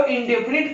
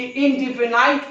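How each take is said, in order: First: "इंडेफिनिट" ending in a short "-nit"; "इंडेफिनिट" ending like "knit"; short-vowel reading. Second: "इंडेफिनाइट" ending in "-nite"; "इंडेफिनाइट" ending like "night"; long-vowel reading. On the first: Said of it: "इंडेफिनिट पढ़ना है कि". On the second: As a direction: say "इंडेफिनाइट" with a final "eye" vowel. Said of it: "कि इंडेफिनाइट पढ़ना". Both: Shown as a demonstration.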